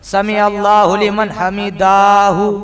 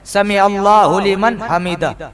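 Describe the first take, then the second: First: The final syllables are stretched out long. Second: The final syllables are said quickly and short. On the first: The speaker calls it wrong. "ना कहे" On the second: The speaker calls it right. "बल्कि जल्दी कहे"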